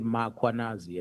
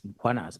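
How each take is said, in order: First: A vowel is inserted between the M and K. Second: The M runs straight into the K. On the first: The speaker calls it wrong. "they will put an A after M" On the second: The speaker calls it right. "there's no A"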